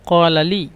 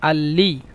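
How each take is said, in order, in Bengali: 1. এটি একটি গভীর 'q' ধ্বনি দিয়ে শুরু হয়। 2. এটি গ্লোটাল স্টপ দিয়ে শুরু হয়, 'q' ধ্বনি নেই। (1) "মূলত" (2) "মিশরের আঞ্চলিক ভাষা কফকে হামজা"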